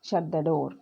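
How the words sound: It is said as a firm falling command. The listener is told to do it. "Falling tone లో పెట్టాను. ... Order"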